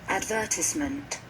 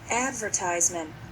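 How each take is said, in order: First: It is said in a British accent. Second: It is said in an American accent.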